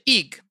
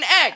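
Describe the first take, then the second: First: The vowel is long, as in 'league'. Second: The vowel is short, as in 'leg'.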